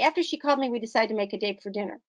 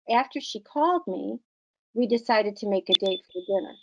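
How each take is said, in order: First: There is no pause after "me". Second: There is a short pause after "me". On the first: The speaker calls it wrong. "we would less likely say" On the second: The speaker calls it right. "you can hear it in your voice that it's a time to pause"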